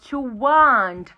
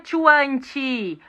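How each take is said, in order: First: The final T is soft and light. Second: The final T is forced and strongly released. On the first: The speaker calls it right. "em inglês é mais sutil" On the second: The speaker calls it wrong. "Não é to want. Brasileiro tem uma mania... de forçar"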